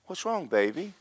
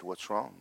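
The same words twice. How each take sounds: First: Sweet, higher-pitched concerned question; lilting, sympathetic coo; kind and sweet. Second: Soft, unsympathetic question; no compassion. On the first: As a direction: imitate a tenderly doting older friend. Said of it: "she's really kind, real sweet". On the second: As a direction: imitate a stern friend with no patience. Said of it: "there was no compassion". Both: Retold or imitated.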